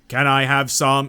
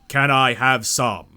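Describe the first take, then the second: First: It is said plainly, without trailing off. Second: It is said melodically, trailing off weirdly.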